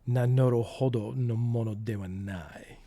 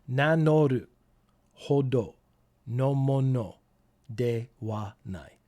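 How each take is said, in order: First: It is said at normal speed. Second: It is said very slowly.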